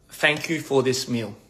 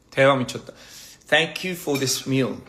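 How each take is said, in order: First: Said in the usual way. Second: Each word drawn out slowly; slow, deliberate English phrase; slow careful repeat. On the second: Shown as a demonstration. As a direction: say it slowly like a lesson. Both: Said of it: "How do I say".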